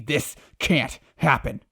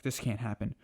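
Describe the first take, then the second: First: Slow, louder, drawn-out denial; building anguish. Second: Said in the usual way. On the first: Retold or imitated. Savitar over the burned city, slow loud anguish. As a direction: drag out "this can't happen" in despair. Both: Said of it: "He's like".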